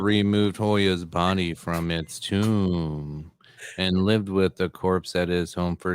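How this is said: It is read in a flat, monotone voice.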